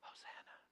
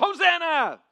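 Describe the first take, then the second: First: It is said quietly and flatly. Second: It is shouted loudly with excitement.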